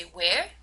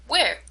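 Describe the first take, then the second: First: "Where" rises at the end, unsure what was said; rising intonation. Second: "Where" starts high and falls, wanting more information; falling tone. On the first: Teacher asks person to repeat themselves, rising intonation on "Where". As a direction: lift "Where" upward as a request to repeat. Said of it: "understand that I haven't understood". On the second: Teacher repeats the demo question for more information, falling tone on "Where". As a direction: drop the pitch through "Where". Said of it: "My tone fell". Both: Shown as a demonstration.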